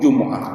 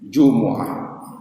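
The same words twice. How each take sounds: First: The word has two syllables, jum'ah. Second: The word has three syllables, jumu'ah. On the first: The speaker calls it wrong. "mungkin dengan Jumat ya" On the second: The speaker calls it right. "Paling tidak di dalam ayat Al-Qur'annya"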